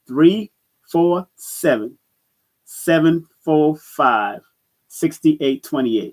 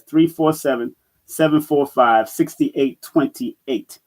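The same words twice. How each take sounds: First: The digits are read at a slower pace. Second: The digits are read at a normal pace.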